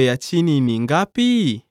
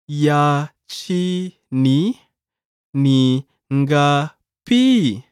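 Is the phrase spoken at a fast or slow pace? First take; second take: fast; slow. First: The phrase is spoken at natural conversational speed. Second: The phrase is spoken slowly and carefully.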